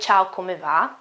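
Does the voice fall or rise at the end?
fall. The voice falls or stays level at the end. It sounds like a statement. The speaker calls it wrong. "So I won't say"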